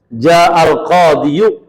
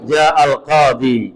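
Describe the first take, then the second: First: The last word ends with an added 'yu' sound. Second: The last word ends in a long 'ee' vowel. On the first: The speaker calls it wrong. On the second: The speaker calls it right.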